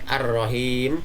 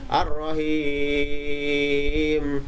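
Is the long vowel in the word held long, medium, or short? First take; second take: short; long. First: The long vowel is held only briefly. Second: The long vowel is held a long time. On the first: "bisa dibaca pendek" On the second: "dibaca dengan panjang"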